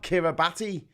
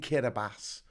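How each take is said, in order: First: The 'ti' is said with a T sound. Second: The 'ti' is said with an S sound. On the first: This is how it is written. "which is actually spelt Kiribati" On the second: This is how locals say it. "they pronounce the T I as an S in Kiribati"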